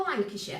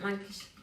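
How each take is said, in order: First: Lancashire accent. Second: Said in the usual way. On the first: Shown as a demonstration. Baker showing how home county sounds, Lancashire accent. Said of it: "Scone said in a northern accent". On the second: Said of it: "If I go Lancashire".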